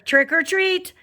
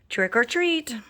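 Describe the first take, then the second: First: It is said a little louder. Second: It is said very softly.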